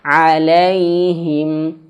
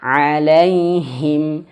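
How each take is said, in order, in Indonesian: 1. Bunyi h tertelan dan hampir tidak terdengar. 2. Bunyi h diucapkan dengan jelas. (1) "Jangan sampai alaihim ini bacanya alaihim" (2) "Harus jelas"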